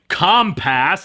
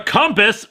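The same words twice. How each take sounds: First: The word is pronounced in an odd, imitated way. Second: The word is pronounced the ordinary way.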